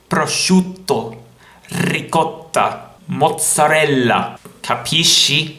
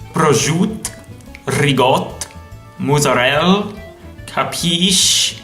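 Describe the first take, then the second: First: It is said in a standard Italian accent. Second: It is said in an Italian-American accent.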